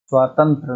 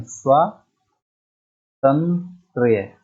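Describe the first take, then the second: First: स्वातंत्र ending in plain -tra, no y; wrong form स्वातंत्र. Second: स्वातंत्र्य very slowly, split as swaa-tan-trya; drawn-out syllables. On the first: Teacher showing students the error, स्वातंत्र ending in -tra. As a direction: say स्वातंत्र without the final ya sound. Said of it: "स्वातंत्र नहीं". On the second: Teacher correcting students, स्वातंत्र्य syllable by syllable. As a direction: stretch स्वातंत्र्य out to the final -trya. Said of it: "स्वातंत्र्य होता है". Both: Shown as a demonstration.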